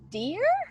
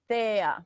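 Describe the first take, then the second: First: The word begins with a hard d sound. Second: The word begins with a soft th sound. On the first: The speaker calls it wrong. "it sounds to me you're saying dear" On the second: The speaker calls it right. "but it's a th th there"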